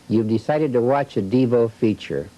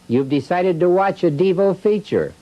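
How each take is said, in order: First: It is said at normal volume. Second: It is said a little louder.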